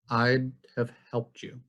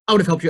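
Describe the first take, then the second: First: The phrase is spoken slowly with reduced small words. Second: The whole phrase is rushed out very fast. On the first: The speaker calls it right. "even when I slow it down" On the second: The speaker calls it wrong. "It's not that I'm actually speaking really fast"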